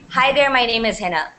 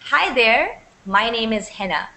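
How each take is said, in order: First: It runs on with no pause after 'there'. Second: There is a brief pause after 'there'. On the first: The speaker calls it wrong. "you wouldn't say" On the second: The speaker calls it right. "So there's a very slight pause"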